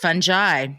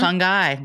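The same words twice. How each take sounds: First: The word does not sound like "fun guy." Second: The word sounds like "fun guy." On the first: The speaker calls it right. "we learned in that it's fungi" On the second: The speaker calls it wrong. "and not fungi, like we were always saying"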